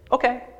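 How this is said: It is said in an excited, upbeat tone. The speaker is happy to do it. "Great, yeah, that's I'm excited"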